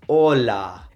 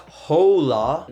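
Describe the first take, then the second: First: Slow "hola" with silent h and pure o; correct Spanish hola. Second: Slow "hola" with breathed h and "oh-oo" glide; wrong English hola. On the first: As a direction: say "hola" as "o-la", no glide. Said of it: "it's hola". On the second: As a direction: drag "hola" out the anglicized way. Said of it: "It's not hola". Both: Shown as a demonstration.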